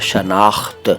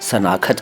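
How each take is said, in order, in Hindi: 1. शब्द की शुरुआत 'sh' ध्वनि से होती है। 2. शब्द की शुरुआत सादी 's' ध्वनि से होती है। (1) "इसके बाद शनाख्त" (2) "कई लोग सनाखत कहते हैं"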